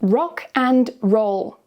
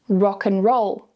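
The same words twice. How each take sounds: First: Said slowly, and is full with a clear d. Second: Said quickly, and shrinks to a weak un. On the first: "slowly with the strong form" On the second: "quickly with the weak form"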